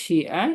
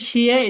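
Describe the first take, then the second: First: The syllable is said with the third tone. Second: The syllable is said with the first tone. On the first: It means write. "তিন নম্বর টোন শিয়া" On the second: It means some. "প্রথম টোন হচ্ছে শিয়া"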